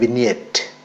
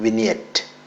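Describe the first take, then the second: Both takes have the same delivery.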